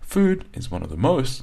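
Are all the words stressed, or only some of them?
some. Only a few key words carry stress. The speaker calls it right. "when the native speaker says this sentence"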